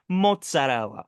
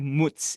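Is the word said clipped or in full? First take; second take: in full; clipped. First: The word is said with all its syllables. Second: The word is cut to one short syllable. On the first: The speaker calls it right. "you pronounce every letter. It's mozzarella" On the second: The speaker calls it wrong. "We don't say mutz in this household"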